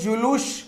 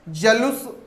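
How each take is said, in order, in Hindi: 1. पहले अक्षर में 'u' स्वर है। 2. पहले अक्षर में छोटा 'a' स्वर है। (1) "जुलूस शब्द होगा" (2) "ने होकर"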